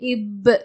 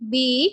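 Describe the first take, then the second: First: The letter is said as a short sound. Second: The letter is said as its full name. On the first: This is how the letter sounds when reading words. "அதோட உச்சரிப்பு இப்" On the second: This is what the letter is called. "இது எல்லாமே அந்த எழுத்தோட பேரு"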